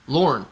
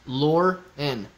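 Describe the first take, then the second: First: "Lorne" as one syllable, falling; name said whole. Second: "Lor-N" split, the N said as its own beat; N pronounced separately. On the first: Streamer showing the name after splitting it, joined demonstration. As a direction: run "Lorne" together in one punched beat. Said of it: "the only difference is". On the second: Streamer explaining he pronounces the N, split demonstration. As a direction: break "Lor-N" after "Lor", then sound the N. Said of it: "I pronounce the N". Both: Shown as a demonstration.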